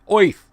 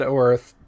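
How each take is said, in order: First: The word sounds like 'oith' in a Brooklyn accent. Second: The word sounds like 'earth' in a plain accent. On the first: This is how the creator reportedly said it. "like a city slicker, you know, like Midwestern Chicago or or Cleveland or even uh, uh, Brooklyn accent" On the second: This is how the speaker usually says it. "I always said Earth"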